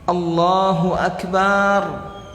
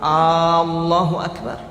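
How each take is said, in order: First: The vowel after b in Akbar is drawn out long. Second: The first vowel of Allahu is drawn out long. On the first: "Atau dia panjangkan ba-nya" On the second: "dia panjangkan alif apa eh, hamzahnya yang pertama"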